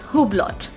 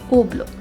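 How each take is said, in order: First: It starts with H and ends with T. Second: It has no H and no final T. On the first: The speaker calls it wrong. "So that's how I'm going to pronounce it" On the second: The speaker calls it right. "The sound of H is absent in this"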